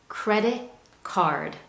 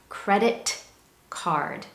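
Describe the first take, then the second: First: The T at the end of credit is dropped. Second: The T at the end of credit is pronounced. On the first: "English speakers typically drop that T and say credit card" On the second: "I have a T sound at the end"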